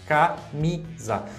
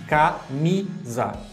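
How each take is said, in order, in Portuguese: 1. A sílaba tônica é a do meio. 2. A sílaba tônica é a do meio.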